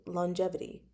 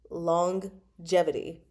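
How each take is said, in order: First: "longevity" said as "lon-jevity", no g in the first syllable; first G dropped. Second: "longevity" said slowly as "long... jevity", both g sounds heard; double G. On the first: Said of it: "I don't say longevity". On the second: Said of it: "everyone I've ever heard say the word says". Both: Shown as a demonstration.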